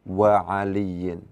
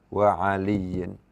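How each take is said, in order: The two takes are said the same way.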